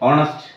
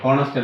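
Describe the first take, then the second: First: The word starts with a vowel, no h. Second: The word starts with an h sound. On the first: The speaker calls it right. "ഓണസ്റ്റ് എന്നാ പറയുക" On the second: The speaker calls it wrong. "ഹോണസ്റ്റ് അല്ല"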